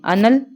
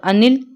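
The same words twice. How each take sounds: First: अनल said clearly with a short a in the middle, a-nal; anal, fire. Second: अनिल said with a clear short i, a-nil, rising at the end; anil, air. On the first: Teacher to students, contrasting fire with air, carefully spelled out. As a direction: stress the plain short vowel in अनल. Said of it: "आग". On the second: Teacher to students, contrasting air with fire, carefully spelled out. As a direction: bring out the i sound in अनिल. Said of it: "वायु". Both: Shown as a demonstration.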